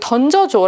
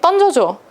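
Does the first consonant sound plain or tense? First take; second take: plain; tense. First: The first consonant is a plain lax d. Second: The first consonant is a tense dd. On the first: The speaker calls it right. "라고 해야 되는데" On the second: The speaker calls it wrong. "이렇게 얘기하는 거"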